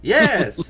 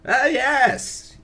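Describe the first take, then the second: First: Loud, lighter client voice, not sage; Mister Johnson voice. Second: High, loud hammed-up sage exclamation; old sage voice. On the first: Acted. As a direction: reset into the client's voice. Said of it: "Hold on". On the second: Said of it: "not the old, old sage voice".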